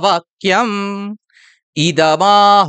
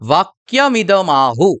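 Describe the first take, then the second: First: The two words are separated by a short break. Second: The two words are run together without a break. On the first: The speaker calls it right. "আমাদের এখানে সন্ধি বিচ্ছেদ করতে হবে" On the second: The speaker calls it wrong. "সন্ধিযুক্ত করে"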